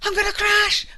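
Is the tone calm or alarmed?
alarmed. It is said with alarm and panic.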